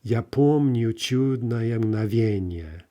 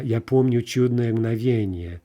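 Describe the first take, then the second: First: Slow, deliberate "Я помню чудное мгновенье", leaning on the stresses; measured metrical reading, syllable by syllable; scanned verse reading. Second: Louder, flowing line of Russian poetry; poem recitation. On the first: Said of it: "look over at the scanned version". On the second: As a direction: recite the verse out loud, projected. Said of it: "let's take a, a Pushkin poem". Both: Shown as a demonstration.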